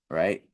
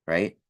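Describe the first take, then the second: The two takes are said the same way.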